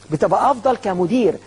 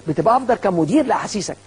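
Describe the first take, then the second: First: افضل slow and weighted; slowly stressed افضل; stress on better. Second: Said in the usual way. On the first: Shown as a demonstration. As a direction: linger on افضل to land the point.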